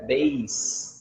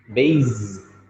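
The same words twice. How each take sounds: First: The middle consonant is a hissing s sound. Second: The middle consonant is a buzzing z sound. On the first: The speaker calls it right. "mas na verdade é base" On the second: The speaker calls it wrong. "muita gente fala base, base, com Z"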